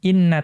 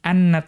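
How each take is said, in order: First: The word begins with an 'i' vowel. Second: The word begins with an 'a' vowel. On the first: "Kemudian boleh dibaca kasroh" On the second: "dengan fathah pertama"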